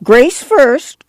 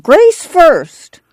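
First: High, insistent clamor; Grandma insisting. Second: Louder and higher insistent demand; Grandma clamoring louder. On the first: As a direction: demand it like a stubborn granny. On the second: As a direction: insist again, harder. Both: A narrator's reading. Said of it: "Grandma clamored".

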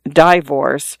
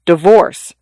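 First: "divorce" with first syllable like "die"; long-I divorce. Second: "Divorce" with the first syllable cut very short; bitten-off first syllable. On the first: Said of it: "mentally pronouncing it divorce". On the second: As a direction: bite off the "Di" in "Divorce" like a hiccup. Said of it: "bit off the first syllable like a hiccup". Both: A narrator's reading.

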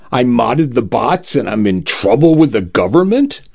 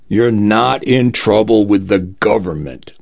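First: Sulky rising question, lips pushed out; pouting. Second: Calm, falling, settling tone; reassuring. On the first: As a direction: whine it like a sulking kid. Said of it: "I pouted". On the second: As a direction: put his mind at ease. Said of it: "assured the lawyer". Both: A narrator's reading.

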